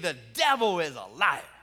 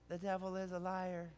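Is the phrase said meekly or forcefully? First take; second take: forcefully; meekly. First: The phrase is said in a bold, forceful way. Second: The phrase is said in a mild, meek way. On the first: The speaker is putting the devil in his place. The speaker calls it right. "There's something about putting him in his place" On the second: The speaker is not confronting anyone. The speaker calls it wrong. "you don't say"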